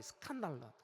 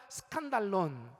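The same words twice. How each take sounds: First: 스칸달론 said low and falling, es-kan-da-lo; 스칸달론 spoken low, syllable by syllable; Greek word skandalon. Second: 스칸달론 said slowly, su-kan-da-lon, falling; 스칸달론 drawn out, ending on a clear n; slow repeat of skandalon. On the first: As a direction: model 스칸달론 for the congregation to repeat. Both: Shown as a demonstration. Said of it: "따라해 볼까요?".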